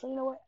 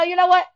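First: Softer, reined-in calm; lowered voice. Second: Higher and louder, fed up; loud exasperated. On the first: After catching herself, speaking to friend more softly. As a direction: drop the voice and steady it. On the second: Scolding friend before catching herself, loud. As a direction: blurt it out loud in frustration. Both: Retold or imitated. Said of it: "let me lower my voice".

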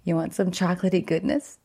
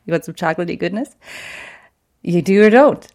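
First: Goofball voice. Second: Silly singsong offer, then a louder push; goofy playful voice. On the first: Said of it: "I'm feeling all goofball-y". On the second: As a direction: tease her with a goofball voice. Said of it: "don't say it like that". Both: Retold or imitated.

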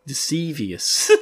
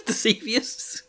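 First: Said in the usual way. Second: Amused, doubtful question on "Deceivious"; laughing at own made-up word. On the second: Shown as a demonstration. Host mocks her own coinage, saying "Deceivious" with a laugh.

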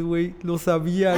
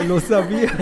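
First: Excited, higher, lo sabía said plainly; the brother starts to realise he was right. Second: Lo sabía shouted louder and higher, rising, with a laugh; the brother cheers that he knew all along; excited shout. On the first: Brother hearing the news, first lo sabía, lively. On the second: Brother hearing the news, lo sabía shouted with a laugh. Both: Retold or imitated. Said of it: "Así todo emocionado".

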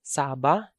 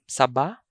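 First: Saba with long SAA, rising end; stress on first syllable. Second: Saba with short SA, stressed BA; weight on the last syllable of saba; stress on second syllable. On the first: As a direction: stretch the first vowel of Saba. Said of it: "or sometimes they pronounce it as". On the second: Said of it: "sometimes they pronounce it as saba". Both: Shown as a demonstration.

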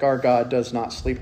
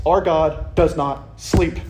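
First: Low and deliberate: our God does not sleep; emphatic. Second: Slow, each word weighted: Our God does not sleep; firm emphatic declaration. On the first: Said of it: "Very emphatic". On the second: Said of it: "You notice how emphatic that is?". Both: Shown as a demonstration.

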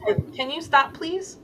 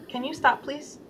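First: "please?" swooping much higher in a pleading rise; exasperated pleading ask with a high rising "please?". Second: "please?" dropped much softer, almost breathed away; soft self-talk with a hushed "please?"; gentle request. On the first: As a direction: beg the inner voice to stop, lifting high on "please?". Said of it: "Like, kinda like that". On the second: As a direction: ask kindly, letting "please?" fade to very soft. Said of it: "that's kinda how I talk to myself". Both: Shown as a demonstration.

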